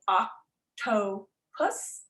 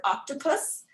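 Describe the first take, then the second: First: "octopus" slowly split as oc-to-pus; syllable by syllable. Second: Said in the usual way. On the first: Shown as a demonstration. Teacher counts syllables under the chin, "octopus" drawn apart. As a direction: break "octopus" into three separate beats with pauses. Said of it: "you go like this and you say". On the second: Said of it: "gonna say the word octopus".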